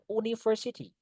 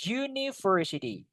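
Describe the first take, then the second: First: "university" misread with an oo at the start; wrong pronunciation. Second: "University" starting with a you sound; correct pronunciation. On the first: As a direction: begin "university" as oo-ni, without the y sound. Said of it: "Kita nggak boleh university". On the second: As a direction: begin "University" as you-ni, set apart clearly. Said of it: "U-nya dibaca kayak U ya". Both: Shown as a demonstration.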